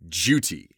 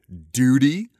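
First: It is said in a British accent. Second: It is said in a North American accent. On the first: "in Windsor Castle or wherever the Queen was, they would always say duty" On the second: "we North Americans would say duty"

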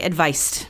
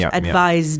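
First: The middle consonant is a voiceless S sound. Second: The middle consonant is a voiced Z sound. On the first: The speaker calls it wrong. "you don't want to say advised" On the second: The speaker calls it right. "this is a Z sound"

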